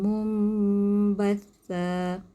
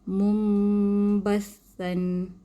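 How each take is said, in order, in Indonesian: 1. Kata ini berakhir dengan vokal, tidak ada n di akhir. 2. Kata ini berakhir dengan bunyi n. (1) "Dengan satu baris sahaja sebab dia wakaf" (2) "Sekiranya kita sambung, kita akan baca mumbathan"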